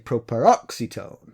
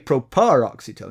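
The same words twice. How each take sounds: First: The stress falls on the third-to-last syllable. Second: The stress falls away from the third-to-last syllable. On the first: The speaker calls it right. "You have to say properoxetone" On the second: The speaker calls it wrong. "You can't say properoxetone"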